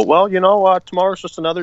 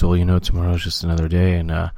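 First: Higher-pitched take on a droning former manager; Mike Matheny. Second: Low-pitched impression of a former manager; Mike Matheny. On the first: Acted. Host mocking his team's former manager, higher-pitched impression. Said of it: "our former manager, Mike Matheny, who would just go". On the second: Co-host correcting the impression of the ex-manager, low voice. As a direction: drop the voice low for a platitude-spouting coach. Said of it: "he would sound like this".

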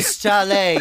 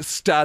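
First: "stale" stretched very slowly into "stal-ay"; "stale" said very slowly as "stal-ay", mock connoisseur; drawn-out stale. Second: "stale" said as "stal", short and flat like a foreign word; "stale" pronounced "stal" with a mock-refined air; mock posh pronunciation. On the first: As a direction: savour "stale" slowly like a wine taster. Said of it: "it's pronounced stale". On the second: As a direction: say "stale" as "stal", like fancy Italian bread. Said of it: "I think you'll find it's pronounced".

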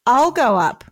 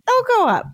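First: Lightly acted wifely insistence; insistent wife. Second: High-pitched eager husband; acted high-voiced volunteering; insistent husband. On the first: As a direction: repeat it firmly in a lightly voiced wife role. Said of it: "Dolly repeated". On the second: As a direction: jump in much higher, as the husband. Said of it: "her husband said".

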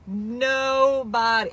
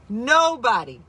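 First: Nobody drawn out very slowly for weight; stretched nobody. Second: Said in the usual way. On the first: Real, not acted. Host insisting to listeners, Nobody said very slowly. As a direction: drag out the word Nobody to drive it home.

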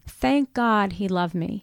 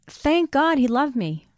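First: Quiet repeat. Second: Heartfelt. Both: Real, not acted.

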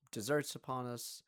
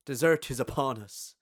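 First: Said in the usual way. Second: Grand declaration of dessert; proclaimed loudly. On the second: Shown as a demonstration. Announcing dessert to friends at the table, louder proclamation.

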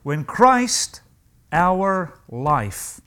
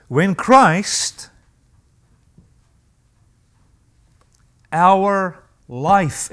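First: Quick restatement, "Christ" stressed; repeated with stress on Christ. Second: "our" drawn out long and weighted, long pause after "When Christ"; solemn scripture reading, "our" dwelt on; slow stressed reading. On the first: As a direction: punch "Christ", then let "our life" drop. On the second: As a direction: lean hard on "our" in "our life". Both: Shown as a demonstration. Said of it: "Notice that phrase".

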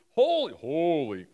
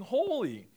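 First: Said in the usual way. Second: "holy." said with a real voice crack upward; voice cracking up an octave. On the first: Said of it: "I don't know why my voice just cracked". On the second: Real, not acted. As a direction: pitch jumps up and cracks on "holy.". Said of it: "my voice just cracked there a little bit".

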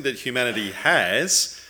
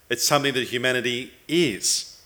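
First: "has" held up with a rising tune; stress on has. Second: "is" landed with a falling tune; stress on is. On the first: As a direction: lean on "has", leaving it open for contrast. Contrasts having with being. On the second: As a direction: lean on "is" to close the contrast. Contrasts being with having. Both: Real, not acted.

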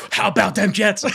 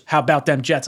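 First: Excited fan cry, retold with gusto; hyped-up re-enacted cheer; all fired up. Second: Said in the usual way. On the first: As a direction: holler it back like a rallying chant. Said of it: "I'm, like, all fired up".

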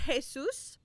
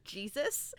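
First: Jesus said the Spanish way, "hay-SOOS"; Spanish pronunciation. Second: Jesus said the English way, "JEE-zus"; English pronunciation. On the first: Viewer naming the expected character name, "Jesus" pronounced Spanish "hay-SOOS". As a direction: say "Jesus" as "hay-SOOS", stressed on the second syllable. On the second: Viewer naming the hoped-for character name, "Jesus" pronounced English "JEE-zus". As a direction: say "Jesus" as "JEE-zus", stressed on the first syllable. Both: Shown as a demonstration. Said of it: "like, the pronunciation".

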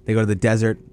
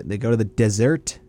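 First: "desert" as DEZ-ert, stress on the first syllable; desert corrected. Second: "desert" said like "dessert", stress on the second syllable; desert mispronounced. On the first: Correcting himself to co-host, "desert" as DEZ-ert. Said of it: "Not the". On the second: Giving his Saints pick, "desert" slipped into dih-ZERT. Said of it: "The dessert?". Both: Real, not acted.

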